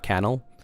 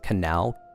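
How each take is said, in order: First: The stress is on the first syllable. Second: The stress is on the last syllable. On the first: The speaker calls it wrong. "It's not canal" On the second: The speaker calls it right. "Last syllable stressed"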